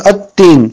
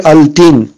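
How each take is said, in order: First: At-tin with no l and a held t; doubled t. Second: Al-tin with the l sounded; unassimilated lam. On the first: Teacher giving the correct reading, held double t in "at-tin". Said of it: "ça devient tajdid". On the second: Teacher warning learners off the mistake, audible l in "al-tin". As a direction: say "al-tin" with an l before a single t. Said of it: "On ne doit pas dire". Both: Shown as a demonstration.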